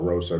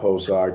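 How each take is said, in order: First: The name begins with an R sound. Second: The name begins with an H sound.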